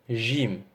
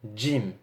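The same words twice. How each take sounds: First: It starts with a soft 'zh' sound. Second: It starts with a 'dj' sound. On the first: The speaker calls it wrong. "Et non Jim" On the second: The speaker calls it right. "c'est comme si il y avait un petit D devant"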